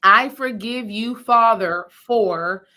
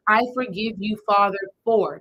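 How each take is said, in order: First: Slow and louder, each word spoken out; firm spoken forgiveness. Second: Said in the usual way. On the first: Shown as a demonstration. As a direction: declare it aloud, not in your head. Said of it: "I want you to say the words". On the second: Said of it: "in your meditation".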